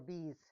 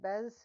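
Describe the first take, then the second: First: The name sounds like the word 'bees'. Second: The name is said as spelled, unlike 'bees'. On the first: "Is it like bees, bzz, bzz" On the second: "Bez as I see it"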